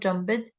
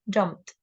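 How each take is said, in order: First: The ending is not pronounced as t. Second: The ending is pronounced as t. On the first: The speaker calls it wrong. "not jumped" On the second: The speaker calls it right. "say the ed as tick"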